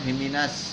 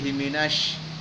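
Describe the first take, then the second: First: The sh sound is short without spreading air. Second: The sh sound has air spreading through the mouth. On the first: The speaker calls it wrong. "Jangan himinas" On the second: The speaker calls it right. "tapi himinas"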